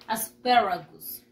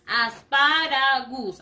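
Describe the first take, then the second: First: ASPARAGUS said "as-PE-ra-gus", stressed E in the second syllable; slow model of ASPARAGUS with "per" for "par"; English pronunciation. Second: ASPARAGUS read slowly as spelt, "as-pa-ra-GUS"; drawn-out Spanish vowels in ASPARAGUS, a clear "pa" and "gus"; spelling pronunciation. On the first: Teacher showing children how it is pronounced, ASPARAGUS as "as-PE-ragus". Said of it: "Y se pronuncia". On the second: Teacher showing children how it is written, slow ASPARAGUS as "as-pa-ra-gus". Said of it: "Así se escribe". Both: Shown as a demonstration.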